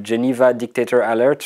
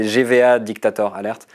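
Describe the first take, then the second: First: Fluent English pronunciation of the account name; perfect English accent. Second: English name in a French accent. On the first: Real, not acted. Swiss guest naming a Twitter account, in a polished English accent. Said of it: "The perfect accent". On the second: Shown as a demonstration. Guest repeating the account name so listeners follow, in a French accent. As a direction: say it the French way, with French vowels and R. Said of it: "Je le dis avec, euh, l'accent français".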